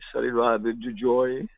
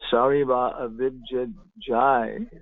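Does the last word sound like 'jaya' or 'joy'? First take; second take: joy; jaya. First: The last word is said as 'joy'. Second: The last word is said as 'jaya'. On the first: "they say joy, joy" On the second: "they don't say Jaya"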